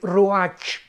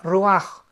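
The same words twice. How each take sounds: First: The word is read with its spelled 'ch' sound. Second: The word ends in a throaty, rasping sound. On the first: The speaker calls it wrong. "se escribe R U A C H" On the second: The speaker calls it right. "pero se pronuncia ruach"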